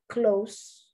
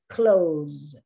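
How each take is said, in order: First: The word ends with a hissing s sound. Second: The word ends with a buzzing z sound. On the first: "One when you pronounce the S like the S" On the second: "one when you pronounce the S like a Z"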